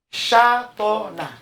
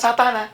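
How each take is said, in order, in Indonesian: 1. Kata itu dimulai dengan bunyi 'sh'. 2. Kata itu dimulai dengan bunyi 's'.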